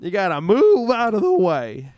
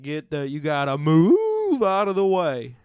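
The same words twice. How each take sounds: First: High, loud cartoon cow yelling again. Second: Loud, slow southern cow bellowing down a hill; slow drawling cartoon cow. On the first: Cow voice redone for his co-host, high and loud. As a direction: holler it like a cow on a sled. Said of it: "You like that, cow?". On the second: Eighties cartoon cow shouting while sledding downhill, loud slow drawl. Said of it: "You have to be like".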